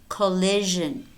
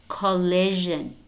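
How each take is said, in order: The two takes are said the same way.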